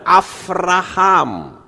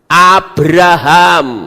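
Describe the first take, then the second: First: The second consonant is a v sound. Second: The second consonant is a b sound. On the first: "bisa dibaca Avraham" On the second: "pakainya kan Beto"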